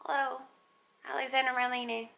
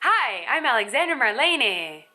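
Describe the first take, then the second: First: The name is said in a timid, quiet voice. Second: The name is said in a suddenly bright, showy voice.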